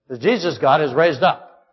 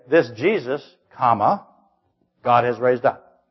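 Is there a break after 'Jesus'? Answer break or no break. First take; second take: no break; break. First: There is no break after 'Jesus'. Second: There is a break after 'Jesus'. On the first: Jesus is called God. The speaker calls it right. "You hear the difference?" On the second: God is the one who raised up Jesus. The speaker calls it wrong. "It doesn't say"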